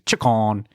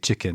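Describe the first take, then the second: First: It is said in a Liverpool accent. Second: It is said in a plain, unmarked accent. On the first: "like Liverpool ... they say chicken" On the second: "you just don't say chicken"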